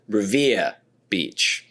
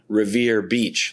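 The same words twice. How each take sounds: First: It is said in a local Boston accent. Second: It is said in a general, non-Boston accent. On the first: "It's someone saying Revere Beach" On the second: "like me"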